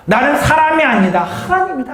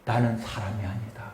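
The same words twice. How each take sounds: First: Louder, higher second take; proclaimed loudly. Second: Soft, low first take of the verse; quiet first reading. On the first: Preacher leads the congregation in the verse, loud and high. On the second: Preacher leads the congregation in the verse, quiet and low. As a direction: start the verse hushed and low. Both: Shown as a demonstration. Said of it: "오늘 구 절 말해요".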